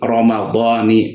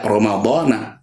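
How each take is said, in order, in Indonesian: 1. Kata ini berakhir dengan vokal 'i'. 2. Kata ini berakhir dengan vokal 'a'. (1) "tapi Ramadhani" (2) "tidak Ramadhana"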